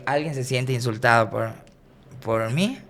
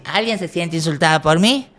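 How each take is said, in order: First: Said in the usual way. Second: Called out louder to the whole room, rising at the end; louder to the crowd. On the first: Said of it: "Le digo". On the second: Retold or imitated. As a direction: ask the audience loudly, playing it up. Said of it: "Así".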